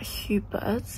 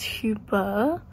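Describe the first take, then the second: First: The name ends with a clear T sound. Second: The name ends without any T sound. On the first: The speaker calls it wrong. "So it's not Hubert" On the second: The speaker calls it right. "So apparently it's a silent T"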